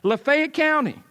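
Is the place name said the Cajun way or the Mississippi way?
Mississippi. The name is said in the local Mississippi way. The speaker calls it right.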